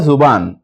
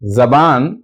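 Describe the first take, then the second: First: The first vowel is a short 'u' sound. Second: The first vowel is a short 'a' sound. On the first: "पेश भी पढ़ सकते हैं" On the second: "जबर भी पढ़ सकते हैं"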